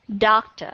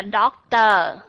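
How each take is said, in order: First: Doctor with a weak, short -or; Doctor, ending a quick uh; light final schwa. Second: Doctor with a full, stressed -or; doctor, last vowel fully said; wrong full ending. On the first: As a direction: reduce the -or of Doctor. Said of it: "âm schwa sound ở phía sau". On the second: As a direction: say doctor with the ending clear and long. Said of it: "mà không phải doctor". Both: Shown as a demonstration.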